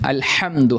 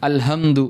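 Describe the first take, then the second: First: The h sound is sharp and raspy. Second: The h sound is plain and soft. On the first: The speaker calls it right. "വളരെ ഷാർപ്പായിട്ട് ഉച്ചരിക്കേണ്ട" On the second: The speaker calls it wrong. "അൽഹംദു എന്ന് ഓതുന്ന ആളുകളുണ്ട്"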